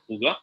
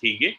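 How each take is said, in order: First: The word is said with a Danish pronunciation. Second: The word is said with an English pronunciation. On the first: "in Danish they pronounce it" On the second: "in English we pronounce it as"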